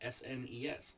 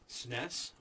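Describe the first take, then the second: First: Each letter is spoken separately. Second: It is said as a single word. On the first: "do I go each individual letter" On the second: "do I say the word outright"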